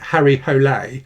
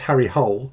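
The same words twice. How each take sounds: First: The surname is not said like English hole. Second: The surname is said like English hole. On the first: This is thought to be the proper pronunciation. "I think you pronounce it" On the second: This is a habitual personal reading of the name. "I always read it as ... which always makes me snigger like a schoolboy"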